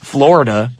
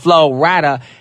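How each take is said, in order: First: It sounds like the state name Florida. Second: It is said as two parts, Flo Rida. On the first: The speaker calls it wrong. "they think his name is Florida" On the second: The speaker calls it right. "No, his name is [name]"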